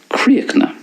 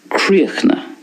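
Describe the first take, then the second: First: It is said in a Connacht Irish accent. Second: It is said in a Connacht Irish accent.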